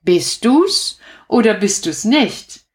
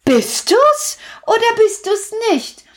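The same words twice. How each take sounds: First: Said in the usual way. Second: Put-on high, bright children's call; children shouting across the street. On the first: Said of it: "Das heißt in der Katzen- und Hundesprache". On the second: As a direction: call it out like excited kids. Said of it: "riefen die Kinder".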